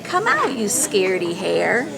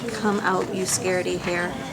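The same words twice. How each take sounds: First: It is said with lively, varied pitch. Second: It is said flatly, with little pitch movement. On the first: The speaker calls it right. "He'd have more inflection" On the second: The speaker calls it wrong. "Would he just say"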